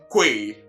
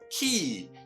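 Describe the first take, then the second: First: The word is said with a 'kw' sound. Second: The word is said exactly like 'key'. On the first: The speaker calls it wrong. "I only hope you are not already saying Kwe" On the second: The speaker calls it right. "let's hear the correct one. Now, this word is rather pronounced key"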